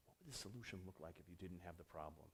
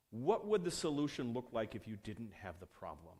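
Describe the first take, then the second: First: Very soft and low, musing; hushed pondering. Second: Said in the usual way. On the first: Retold or imitated. Developer mulling over an older engineer's question, hushed and low. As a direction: turn it over quietly, almost to yourself.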